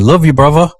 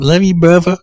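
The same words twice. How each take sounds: First: Higher, playful attempt at a British accent; imitated British accent. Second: Higher mock British-tinged toddler voice; imitated British accent. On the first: Host imitating the toddler copying the British dad, British accent. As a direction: mimic a kid trying to sound British. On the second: Host imitating the Alabama-raised British toddler, British-tinged accent. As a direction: mimic a little kid attempting British, pitched up. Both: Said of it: "trying to get some of that British accent".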